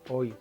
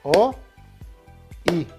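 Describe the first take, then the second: First: The vowels are joined into one syllable. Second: The vowels are split into two separate beats. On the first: The speaker calls it right. "pero es una sola sílaba" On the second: The speaker calls it wrong. "Si yo aplicara la vieja desconfiable de los aplausos"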